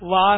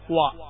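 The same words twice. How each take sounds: First: The first sound has upper teeth touching the lip. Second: The first sound uses both rounded lips only. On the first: The speaker calls it wrong. "വാ എന്നല്ല" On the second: The speaker calls it right. "വാ എന്നാണ്"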